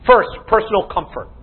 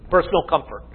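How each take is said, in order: First: Said in the usual way. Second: Softer, lower echo of the heading; quiet repeat. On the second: Shown as a demonstration. Preacher repeating his point to the congregation, softer and lower. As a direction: drop the voice and let it sink in. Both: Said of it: "Let's look at them briefly".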